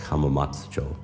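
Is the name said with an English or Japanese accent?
Japanese. It is said with Japanese-style vowel sounds. The speaker calls it right. "you say like"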